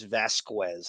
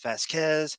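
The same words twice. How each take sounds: First: The name is said with a W sound. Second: The name is said without a W sound. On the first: The speaker calls it wrong. "She just says Vasquez. And th- who throws a W in" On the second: The speaker calls it right. "it's Vasquez"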